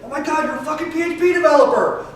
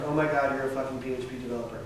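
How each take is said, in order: First: It is said with lively, excited energy. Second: It is said in a flat monotone. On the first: The speaker thinks it is awesome. "That's so awesome" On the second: The speaker's feeling about it is unclear. "if I say it in monotone"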